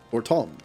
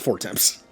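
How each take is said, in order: First: The second syllable sounds like 'Tom'. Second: The second syllable sounds like 'temps'. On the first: The speaker calls it right. "so it's for Tom" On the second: The speaker calls it wrong. "not four temps"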